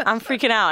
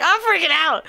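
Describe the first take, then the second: First: Said in the usual way. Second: High loud mock panic; panicked. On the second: Nervous at the door before the threesome, high panicky cry. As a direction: blurt it like you're losing it. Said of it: "And I'm like".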